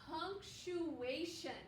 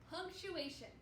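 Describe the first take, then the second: First: Punctuation drawn out slowly, each syllable clear. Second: Said in the usual way. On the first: Shown as a demonstration. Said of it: "Can you say that with me?". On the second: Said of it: "That's a hard word for a lot of people to say".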